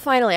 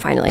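First: It is said with eager, relieved delight. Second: It is said in a flat, resigned way. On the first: Something long hoped for has happened at last. "I don't say finally in like a, oh, finally" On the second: It was bound to happen eventually. "I say finally in like a, it was bound to happen, finally"

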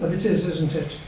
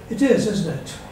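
First: The voice stays flat and even throughout. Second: The voice moves up and down throughout. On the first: "Which I'm doing with a neutral intonation, so-called" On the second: "now if I vary the intonation"

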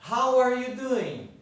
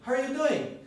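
First: It is said slowly with 'are' fully pronounced. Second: It is said quickly with 'are' nearly swallowed.

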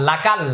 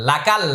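Both takes have the same delivery.

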